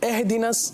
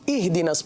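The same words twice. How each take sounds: First: The vowel is said in an e-like majhool way. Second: The vowel is said as a pure short i. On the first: The speaker calls it wrong. "ये मजहूल अदायगी है" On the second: The speaker calls it right. "इहदिनस पढ़ेंगे"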